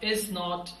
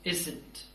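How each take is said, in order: First: It is said as two separate full words. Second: It is said as one contracted word. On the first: "लोगों ने बार बार इसको पढ़ा, is not" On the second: "and after that it became isn't"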